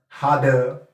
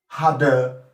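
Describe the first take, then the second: The two takes are said the same way.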